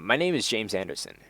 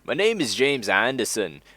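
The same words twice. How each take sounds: First: It is said in an ordinary everyday accent. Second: It is said in an attempted Scottish accent.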